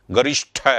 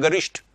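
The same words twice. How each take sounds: First: गरिष्ठ ending in an aspirated ठ, said as गरिष्ठ with a breathy th; common wrong pronunciation. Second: गरिष्ठ ending in a plain unaspirated ट; correct pronunciation. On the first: Teacher showing students the wrong way to say गरिष्ठ, ending it on an aspirated ठ. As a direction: end गरिष्ठ on a hard aspirated ठ sound the wrong way. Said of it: "गरिष्ठ नहीं बोलते". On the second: Teacher giving the correct form, गरिष्ठ ending on a crisp unaspirated ट. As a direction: finish गरिष्ठ cleanly on a crisp ट, no breath after it. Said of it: "हम बोलते हैं".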